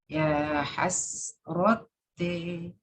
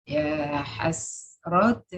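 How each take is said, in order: First: The final vowel leans strongly toward e. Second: The final vowel leans slightly toward e. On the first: "Hamzah al-Kisai bil imala" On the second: "dan bil taklid"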